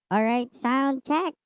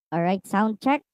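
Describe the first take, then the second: First: The voice sounds sharper and higher-pitched. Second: The voice has a milder pitch-raising effect.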